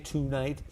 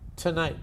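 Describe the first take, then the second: First: The first syllable has a full 'too' vowel. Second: The first syllable has a weak, reduced vowel. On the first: The speaker calls it wrong. "we don't say tonight" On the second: The speaker calls it right. "we say to, tonight"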